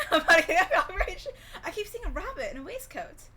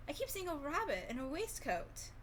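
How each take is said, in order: First: Slow and loud, laughing through the line; can't get through it for giggling; real laughter breaking up a retold line. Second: Said in the usual way. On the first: Real, not acted. Repeats the quote while cracking up.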